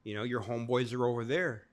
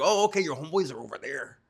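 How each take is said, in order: First: Said in the usual way. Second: Higher, louder nerdy put-on voice; mock nerd voice for the prison guard; Poindexter voice. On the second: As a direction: play the prim nerd, over-proper. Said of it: "my best Poindexter voice".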